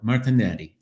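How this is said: The name is said with an Italian pronunciation. This is the form used in Italy. "outside of uh, the U S and in Italy, it would be more"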